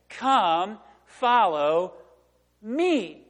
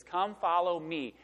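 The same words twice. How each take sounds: First: Each word set apart by pauses, FOLLOW pushed loud; "Come, follow me" spaced out, one word at a time, a louder lift on "follow"; slow emphatic call. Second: Said in the usual way. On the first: Shown as a demonstration. Preacher voicing Jesus calling the fishermen, slow and emphatic.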